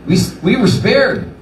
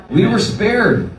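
First: Said in the usual way. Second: Slow, weighty repeat of spared; grateful, slowed-down repeat; slow emphasis. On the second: Real, not acted. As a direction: land were spared slowly and firmly.

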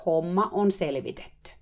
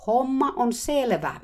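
First: Said in the usual way. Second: Slow, much higher, loud shout. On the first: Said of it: "mä huusin uudelleen". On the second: Retold or imitated. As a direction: yell it slowly to the therapist. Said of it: "hehkuva aurinkokin jo huusi". (hidas kova huuto)

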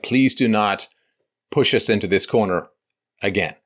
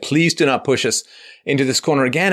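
First: Said in the usual way. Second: Higher and louder, pleading; a higher, louder begging plea. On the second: Retold or imitated. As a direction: beg them not to push us again. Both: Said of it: "begging the left".

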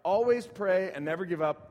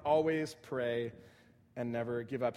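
First: Said in the usual way. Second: Always pray said slowly, dropping lower at the end; slow, deliberate repeat. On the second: Shown as a demonstration. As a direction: spell it out word by word, then let never give up fall lower.

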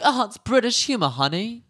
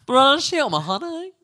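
First: Bad British accent. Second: Exaggerated British accent. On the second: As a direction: ham up a posh British lady with a high "honey". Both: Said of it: "British accent was so bad right there".

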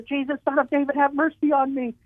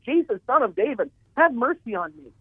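First: Much higher straining plea, level not raised; a blind man calling out higher still, begging; screamed even louder. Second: A blind man calling out to Jesus, begging; imitated scream. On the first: Retold or imitated. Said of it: "he screamed even louder". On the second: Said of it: "he screamed aloud".

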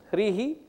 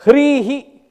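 First: Said in the usual way. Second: Loud, high-pitched recited term; emphatic recitation. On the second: Shown as a demonstration. Teacher reciting a Sanskrit term to students, emphatic recitation. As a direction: call the term out firmly.

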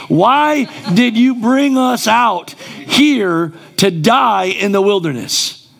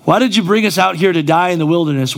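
First: Said in the usual way. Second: Quick, lightly hammed-up whine of "why did you bring us out here"; fast mock lament aimed at God; mock whining complaint. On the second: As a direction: rattle off the grumble like a sulking believer. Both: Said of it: "we can act like we don't talk like this".

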